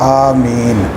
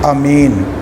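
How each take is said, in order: First: The first vowel is long, m is single. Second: The first vowel is short, m is single. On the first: The speaker calls it right. "अलिफ खींचकर मद के साथ" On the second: The speaker calls it wrong. "बाज़ लोग कहते हैं कि इसको पढ़ा जाए अमीन"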